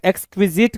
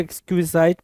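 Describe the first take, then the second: First: "एक्सक्विजिट" ending like English "zit"; short-i pronunciation. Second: "एक्सक्विजाइट" ending like "zite", rhyming with "kite"; long-i pronunciation. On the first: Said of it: "कुछ लोग पढ़ेंगे". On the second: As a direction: say "एक्सक्विजाइट" with an "eye" vowel in the last syllable. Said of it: "कुछ लोग एक्सक्विजाइट पढ़ेंगे". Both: Shown as a demonstration.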